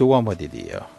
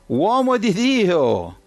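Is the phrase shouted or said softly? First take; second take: softly; shouted. First: The phrase is said softly, not shouted. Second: The phrase is shouted loudly. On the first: The captain humbly begs for mercy. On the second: The captain demands respect without humility.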